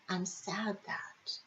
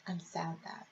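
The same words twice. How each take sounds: First: Soft whisper, slow; whispered prompt. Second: Very soft, almost gone; much softer. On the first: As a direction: breathe the words out gently. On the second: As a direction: let it fade right out. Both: Shown as a demonstration.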